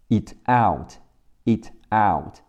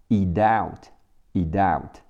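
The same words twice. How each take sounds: First: Said in the usual way. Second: "eat out" run together, t voiced to d; linked t as d. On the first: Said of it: "eat的t经常会变成的". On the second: Shown as a demonstration. Teacher shows learners linking, "eat out" said as "ee-dout". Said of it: "和后面out的啊连起来".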